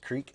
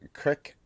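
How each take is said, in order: First: It is said with a long standard 'creek' vowel. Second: It is said with a short Ohio 'crick' vowel.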